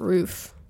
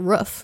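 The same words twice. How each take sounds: First: It is said with a non-Boston pronunciation. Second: It is said with a Boston pronunciation. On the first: The speaker calls it right. "not roof" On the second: The speaker calls it wrong. "They say roof"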